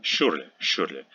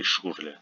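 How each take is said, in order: First: Surely as a German surname with soft sh, "shyurle". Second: Surely as a surname with hard sh, "shoorle". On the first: Teacher showing a soccer player's name, soft sh in Surely. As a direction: soften the Sh in Surely. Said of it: "Sh is never soft, but". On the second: Teacher showing the strange form, hard sh in surely. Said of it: "We don't say surely". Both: Shown as a demonstration.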